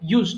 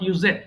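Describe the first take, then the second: First: The ending is joined, making one syllable. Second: An extra vowel makes the ending a second syllable. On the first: The speaker calls it right. "এটা কিন্তু simple ইউজড হবে" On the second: The speaker calls it wrong. "অনেকে ইউজেড বলে ফেলে ভুল করে"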